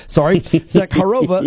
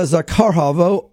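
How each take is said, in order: First: "Zakharova" said carefully as "Za-kha-ro-va" with every syllable; corrected name. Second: "Zakharova" slurred as "Zakaava", the r and h swallowed; mispronounced name. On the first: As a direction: spell out "Zakharova" properly, kha and ro clear. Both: Real, not acted.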